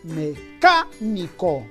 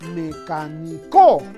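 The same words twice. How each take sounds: First: The stress is on the second syllable. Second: The stress is on the fourth syllable. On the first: The speaker calls it right. "la mayor fuerza de voz está en la antepenúltima sílaba, es decir, en la K" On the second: The speaker calls it wrong. "Quizás sea aguda ... la mayor fuerza en la co no suena bien"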